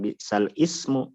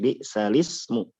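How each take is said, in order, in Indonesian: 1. Ismu dibaca terpisah dengan awal vokal sendiri. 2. Huruf lam membawa bunyi i, menyambung menjadi lismu. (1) "bukan bi sal ismu" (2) "tapi bi salismu. Li di lamnya"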